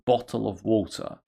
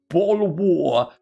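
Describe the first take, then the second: First: The t sounds are pronounced as fricatives. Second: The t sounds are replaced by glottal stops. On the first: This is how the speaker usually says it. "the second one is fricative" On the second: Another person says it this way. "The, the first one is glottal"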